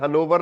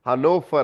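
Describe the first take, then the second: First: The middle consonant is a v sound. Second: The middle consonant is an f sound. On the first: The speaker calls it wrong. "हनोवर नहीं है ये" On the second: The speaker calls it right. "हनोफर है"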